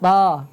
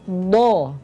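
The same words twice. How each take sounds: First: The sound is thin, with the tongue root lowered. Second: The sound is made with the lips rounded. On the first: "suaranya jadi begini. ... tipis ya" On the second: "Bukan do. Ini maaf dibulatkan"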